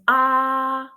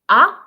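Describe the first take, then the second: First: It is said with the first tone. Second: It is said with the second tone. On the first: "the first tone is ah" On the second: "and then ah"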